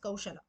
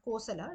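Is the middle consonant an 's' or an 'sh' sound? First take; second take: sh; s. First: The name has an 'sh' and an 'au' vowel. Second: The name has a plain 's' and short 'o'. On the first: The speaker calls it right. "it is Kaushala" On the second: The speaker calls it wrong. "It's not Kosala"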